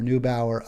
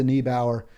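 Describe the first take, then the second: First: "Neubauer" as NOO-bower; alternative pronunciation. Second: "Neubauer" as NEE-bower; first pronunciation attempt. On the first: Host offering another reading of the name, "Neubauer" as NOO-bower. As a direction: say "Neubauer" with an oo in the first syllable. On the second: Host trying the German activist's name, "Neubauer" as NEE-bower. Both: Real, not acted. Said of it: "or Neubauer of Germany".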